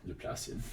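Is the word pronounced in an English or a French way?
French. It is pronounced the French way. The speaker calls it right. "definitely pronounce it Laplacian. Yes, sound as French as you can"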